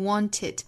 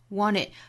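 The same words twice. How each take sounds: First: The t sound links into the next word. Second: The t is dropped; the n links on. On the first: "Want 和 it 之间有连读" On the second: "t 这个爆破音略掉，前面的前鼻音去跟后面元音做连读"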